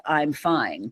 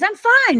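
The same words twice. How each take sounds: First: Softer, lower I'm fine; dropping the mask for a beat; retold teen repeating the same quiet I'm fine; quiet flat I'm fine. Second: High, bright-sung I'm fine; mock-cheerful front; teen hiding pain behind a high cheerful I'm fine; chipper I'm fine. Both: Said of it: "the chorus I sang".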